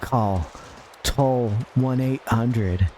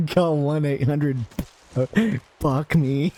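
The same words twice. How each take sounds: First: Slow, drawn-out hotline number; mock ad read. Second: Laughing. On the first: Streamer voicing a fake hotline ad, slow and smooth. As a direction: read the number like a cheesy commercial. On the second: Real, not acted. Laughs through the ad.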